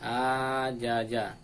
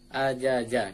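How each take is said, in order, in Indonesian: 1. Ada satu suku kata yang dipanjangkan lebih lama dari yang lain. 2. Setiap suku kata mendapat satu ketukan pendek yang sama. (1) "jangan sampai dipanjang-panjangkan. Contohnya ajaja salah" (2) "Harus sama iramanya, satu ketukan semuanya, ajaja gitu"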